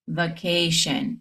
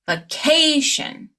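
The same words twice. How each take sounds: First: The stress is not on the syllable before -tion. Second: The stress is on the syllable before -tion. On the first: The speaker calls it wrong. "it's not going to be vacation" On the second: The speaker calls it right. "You'll stress the syllable right before"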